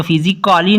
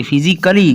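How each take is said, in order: First: फिजिकली with a full 'kaa-lee' ending; गलत उच्चारण. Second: फिजिकली with silent A, short 'kuh-lee'; सही उच्चारण. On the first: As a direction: sound out the A in फिजिकली as 'physic-aa-lee'. (फिजिकली में 'का-ली' बोलकर गलत उच्चारण) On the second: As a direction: drop the A, say फिजिकली as 'physic-klee'. (फिजिकली में A silent, छोटा 'क-ली') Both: Shown as a demonstration. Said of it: "इसको फिजिकली नहीं बोलेंगे".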